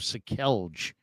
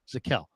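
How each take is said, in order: First: The name ends with an audible J sound. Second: The name ends without any J sound. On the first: The speaker calls it wrong. "I can't listen to people calling him Sakelj" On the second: The speaker calls it right. "that's a silent J"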